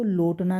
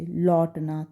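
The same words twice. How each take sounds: First: लोटना with a closed 'o', like 'lotna'; contrasting o vowel. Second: लौटना with an open 'au', like 'lawtna'; correct au vowel. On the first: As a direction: say लोटना as 'lotna', not 'lawtna'. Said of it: "नहीं पढ़ेंगे". (लोटना में 'ओ' की ध्वनि) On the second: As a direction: say लौटना as 'lawtna', not 'lotna'. तब हम इसको लोटना नहीं पढ़ेंगे. (लौटना में खुली 'औ' की ध्वनि) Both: Shown as a demonstration.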